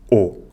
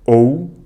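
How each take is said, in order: First: The vowel is a single steady sound. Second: The vowel glides as a diphthong. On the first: This is how most of the country says it. "na maior parte do país é pronunciado O" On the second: This is how northern accents say it. "pronunciam mais os ditongos"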